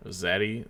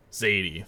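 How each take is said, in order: First: Zaddy with a short flat A as in "cat"; unsure pronunciation. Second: Zadie with a long AY, as in "lady"; settled pronunciation. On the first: Caster unsure of a player's name, trying "Zaddy" with short A. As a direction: try out "Zaddy" as a question, rising. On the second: Caster settling on the player's name, "Zadie" with long AY. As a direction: land firmly on "Zadie", falling at the end. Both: Real, not acted. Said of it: "that sounds right".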